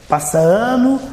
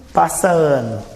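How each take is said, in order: First: "passa ano" climbing high on "ano"; rising tune. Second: "passa ano" falling low at the end; falling tune. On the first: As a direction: lift "ano" and leave it hanging. ("passa ano" com entonação ascendente) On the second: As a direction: let "ano" drop, closing the phrase. ("passa ano" com entonação descendente) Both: Shown as a demonstration. Lista repetida dos anos passando.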